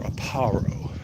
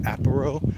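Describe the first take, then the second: First: "Aparo" as uh-PAH-ro, slowly; "Aparo" stressed in the middle, uh-PAH-ro; stress on second syllable. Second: "Aparo" as AP-uh-ro, first syllable hit; "Aparo" stressed at the front, AP-uh-ro. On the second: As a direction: lean on the opening AP of "Aparo". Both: Shown as a demonstration. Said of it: "Where do you put the emphasis?".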